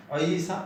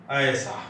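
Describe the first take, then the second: First: ऐसा said as a-ee-saa; Odia pronunciation. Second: ऐसा with one long open ae; Hindi pronunciation. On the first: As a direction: split the first vowel of ऐसा into a and ee. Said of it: "Odia के हिसाब से". (ऐसा को अइसा बोलें) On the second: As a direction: hold the first vowel of ऐसा, no ee glide. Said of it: "परंतु ऐसा नहीं बोलते". (ऐसा को खुले 'ऍ' से बोलें) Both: Shown as a demonstration.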